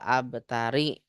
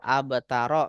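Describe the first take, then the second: First: The word ends in the vowel i. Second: The word ends in the vowel a. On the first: "Nggak boleh" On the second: "Nggak boleh"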